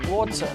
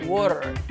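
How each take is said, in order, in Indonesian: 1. Bunyi t-nya jelas dan tegas. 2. Bunyi t terdengar seperti d yang lembut. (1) "Kalau di British itu kan water" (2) "American itu water"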